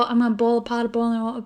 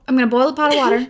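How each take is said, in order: First: "boil" said like "pole", "oil" like "all"; Southern boil. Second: "boil" said with a clear oi, quick and clipped; careful boil. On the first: Sister saying it her natural Southern way. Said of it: "everyone clocks me for it". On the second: Sister finally saying boil right for listeners. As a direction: land "boil" with a full oi sound. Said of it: "That didn't sound too bad". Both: Shown as a demonstration.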